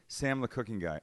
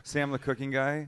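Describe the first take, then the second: First: Mock-embarrassed, quiet introduction; sheepish caller. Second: A little firmer, asked to repeat it; mock-embarrassed repeat of the name; repeating for clarity. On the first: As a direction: softly give the name, falling away. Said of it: "My fear is this". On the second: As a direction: repeat it more audibly, still unsure. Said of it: "I'm sorry, who?".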